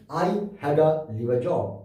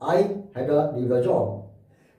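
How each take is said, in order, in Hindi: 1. 'to' और 'the' कमज़ोर, हल्की ध्वनियों में बोले जाते हैं। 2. 'to' और 'the' कमज़ोर, हल्की ध्वनियों में बोले जाते हैं।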